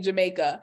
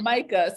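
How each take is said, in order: First: The word begins with a J sound. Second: The word begins with an H sound. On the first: The speaker is naming the country in English. "So remove the the H, put the J" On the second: The speaker is naming the drink in Spanish. "it goes H instead of the J"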